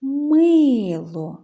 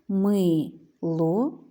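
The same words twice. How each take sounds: First: Loud, higher call with long MY in «Мило». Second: «мило» as my, pause, lo; split into syllables. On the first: Teacher shows children the stress, «Мило» called out. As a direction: call «Мило», stretching the stressed first syllable. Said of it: "неначе гукаємо". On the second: Teacher counts syllables for children, «мило» split in two. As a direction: say «мило» in two separate slow beats. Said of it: "два склади". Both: Shown as a demonstration.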